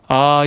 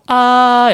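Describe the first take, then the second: First: It is said in a normal, lower voice. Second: It is said higher and trembling, as before a fan.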